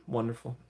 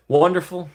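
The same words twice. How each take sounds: First: Murmured. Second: Louder, higher exclaimed Wonderful. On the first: Streamer repeats the praise to chat, quietly. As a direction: let Wonderful drop quietly. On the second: Streamer cheers a chat comment, loud. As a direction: burst out with Wonderful. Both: Shown as a demonstration. Repeats word two ways.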